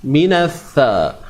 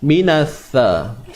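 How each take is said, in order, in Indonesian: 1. Konsonannya 'th' dengan ujung lidah keluar. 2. Konsonannya 'th' dengan ujung lidah keluar.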